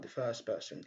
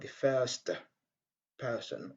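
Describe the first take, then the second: First: The t at the end of first is dropped. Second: The t at the end of first is pronounced. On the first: The speaker calls it right. "on dit tout simplement the first person et on rejette le son T" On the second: The speaker calls it wrong. "au lieu de dire uh"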